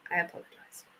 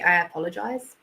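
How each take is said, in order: First: Whispered apology. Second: Said in the usual way. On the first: Pretend. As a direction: whisper the sorry, much softer. Repeats apology, then whispers it.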